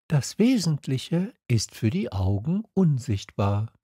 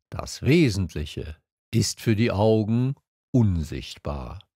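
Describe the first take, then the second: First: Lightly voiced young learner, higher; Little Prince. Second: Measured, even voice with pauses; fox character. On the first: Prince repeats the fox's secret to memorise it, higher voice. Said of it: "wiederholte der kleine Prinz". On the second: Fox tells the prince his secret, evenly and deliberately. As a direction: impart it as the wise fox. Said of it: "sagte der Fuchs". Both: A narrator's reading.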